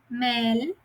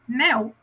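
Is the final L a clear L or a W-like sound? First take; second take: clear L; W-like. First: The final L is a clear L sound. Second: The final L sounds like a W. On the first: "Uma L eu leio como em espanhol" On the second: "e outra eu leio como português, com U"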